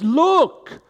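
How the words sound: It is said as an excited exclamation.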